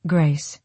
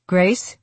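First: Said in the usual way. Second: Rising call to his wife. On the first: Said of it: "Chapter forty-five". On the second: Acted. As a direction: call her name across the room. Husband calling from ladder.

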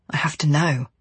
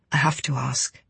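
First: Breathy whisper, no voice. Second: Said in the usual way. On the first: A narrator's reading. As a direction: whisper it urgently to yourself. Inner urge, whispered.

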